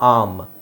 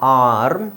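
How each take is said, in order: First: The r sound is left out entirely. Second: The r sound is pronounced after the vowel.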